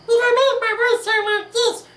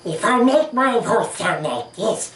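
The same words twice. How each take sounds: First: The voice sounds sharp and piercing. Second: The voice sounds squishy and slimy.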